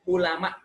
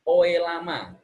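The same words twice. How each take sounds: First: Said in the usual way. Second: "Oe lama" said as written, with "oe" sounded out; spelling read literally. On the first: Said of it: "ini yang bakunya". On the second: Shown as a demonstration. A teacher reading an old spelling literally, sounding out "oe". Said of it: "apalagi oe lama begini".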